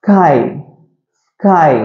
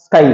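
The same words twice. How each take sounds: First: Drawn-out s leading into 'கை'; S sound first. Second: 'ஸ்கை' with a short, unstressed s; normal run-together way. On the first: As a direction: hiss the s, then land on 'கை'. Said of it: "அந்த sound முதல்ல வரணும்". ('ஸ்ஸ்' நீட்டி 'கை') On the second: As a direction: run straight through 'ஸ்கை', no held s. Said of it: "அப்படி சொல்லக்கூடாது". ('ஸ்கை' என்று 'ஸ்' நீட்டாமல்) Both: Shown as a demonstration.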